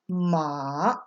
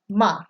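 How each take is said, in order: First: It is said with the third tone. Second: It is said with the fourth tone. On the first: It means horse. "when you go down the tone list" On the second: It means to scold. "You're yelling at someone"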